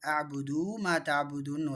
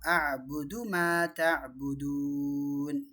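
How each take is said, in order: First: The final vowel of the first word is stretched. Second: The final vowel of the first word stays short. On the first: The speaker calls it wrong. "பரவலாக நிறைய பேர் என்ன செய்வாங்க? ... அபுதுன்னு நீட்டிட்டா" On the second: The speaker calls it right. "அதனால் இங்கே வந்து என்ன செய்யணும்?"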